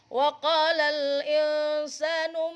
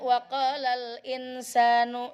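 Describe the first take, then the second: First: The n before s is nasalized and hidden. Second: The n before s is pronounced clearly. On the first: The speaker calls it right. "ikhfa ... samar" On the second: The speaker calls it wrong. "salah, jangan dibaca izhar"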